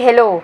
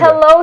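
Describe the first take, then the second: First: The L is said soft and light. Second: The L is said hard and firm. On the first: This is how foreigners say it. The speaker calls it wrong. "hindi hello" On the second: This is how Tagalog speakers say it. The speaker calls it right. "mas matigas kasi sa hello"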